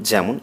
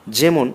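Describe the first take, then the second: First: যেমন said "jaemon"; open ae sound. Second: যেমন with close e, "jemon"; plain e sound. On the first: Teacher showing the correct reading, open ae in যেমন. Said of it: "না পড়ে যেমন". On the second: Teacher showing the reading to avoid, close e in যেমন. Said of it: "না পড়ে". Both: Shown as a demonstration.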